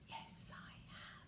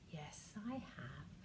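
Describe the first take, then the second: First: It is said in a whisper. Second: It is said in a normal talking voice.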